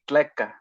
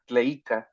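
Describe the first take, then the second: First: The vowel after tl is a plain e. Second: The vowel after tl is an ei diphthong. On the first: This is how the speaker's own variant says it. "for us, it would be tleca" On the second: This is the classical form. "the classical, it would be uh, tleica"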